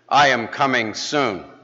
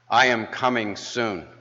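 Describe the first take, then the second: First: It is said in a louder, firmer voice. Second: It is said in a moderately strong voice.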